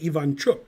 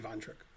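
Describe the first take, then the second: First: The name is said the native way. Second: The name is said the casual English way. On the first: "even though that's how you pronounce it" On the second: "I just say Ivanchuk"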